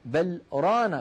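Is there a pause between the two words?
yes. A short pause separates the two words.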